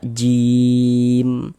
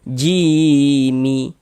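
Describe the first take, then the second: First: The word ends on a silent consonant. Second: The word ends with an added vowel. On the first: The speaker calls it right. "kita baca jim" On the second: The speaker calls it wrong. "Jangan dibaca jimi"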